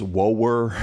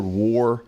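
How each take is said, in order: First: "woer" stretched into two syllables, deep Southern; Southern drawl. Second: Said in the usual way. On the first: Shown as a demonstration. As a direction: draw out "woer" slowly in a Southern accent. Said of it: "deep down in the South". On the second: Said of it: "the word war becomes woer".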